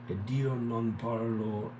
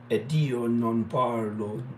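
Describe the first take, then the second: First: It is said without an Italian accent. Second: It is said with an Italian accent. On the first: The speaker calls it wrong. "I couldn't do it in the Italian accent right then" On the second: The speaker calls it right. "Let's do it now"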